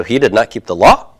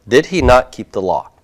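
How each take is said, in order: First: "he did not keep the law," rising on "law"; rising intonation. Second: Said in the usual way. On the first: Shown as a demonstration. Teacher contrasting the rising version with the reordered one. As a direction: end "law" with an upward lift. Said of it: "rising intonation at the end". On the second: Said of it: "I can reorder my words".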